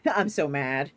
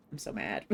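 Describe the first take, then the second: First: Louder, laughing through it; playful laughing gripe; laughing complaint. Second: Muttered low and soft; sulky mutter; quiet grumble. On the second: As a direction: grumble it under your breath. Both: Real, not acted.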